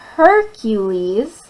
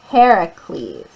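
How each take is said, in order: First: The name is said in its English form. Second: The name is said in its Greek form. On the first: "in our English we say Hercules" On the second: "in Greek it's Heracles"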